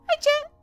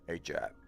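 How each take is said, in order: First: The voice is put on very high and squeaky. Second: The voice is put on deep and low.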